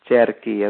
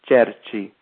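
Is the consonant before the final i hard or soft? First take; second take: hard; soft. First: The middle consonant is a hard k sound. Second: The middle consonant is a soft ch sound. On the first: "You need to add in the I to keep the hard sounding H" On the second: "as opposed to"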